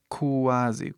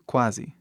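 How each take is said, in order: First: "Quase" broken slowly into "ku-a-zi"; sounding out QU. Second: Said in the usual way. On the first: Shown as a demonstration. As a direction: draw out the "ku" glide in "Quase". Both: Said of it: "o som que, pra mim".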